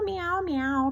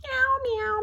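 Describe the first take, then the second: First: Kitten meow. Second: Much higher, louder cat cry; kitten meow. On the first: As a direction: keep mewing like a kitten. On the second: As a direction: mew like a stuck kitten. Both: A narrator's reading. Kitten crying from the tree.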